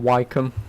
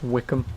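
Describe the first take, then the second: First: The first syllable sounds like 'why'. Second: The first syllable sounds like 'wick'. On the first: The speaker calls it wrong. "not Wycombe" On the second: The speaker calls it right. "it's pronounced Wickham"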